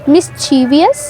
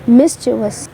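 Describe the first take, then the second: First: It has four syllables, ending in -vee-us. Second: It has three syllables, ending in -vus. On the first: The speaker calls it wrong. "अब हम इसको किस तरह से pronounce करते हैं?" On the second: The speaker calls it right. "इस word को हम प्रोनाउंस करते हैं मिस्चिवस"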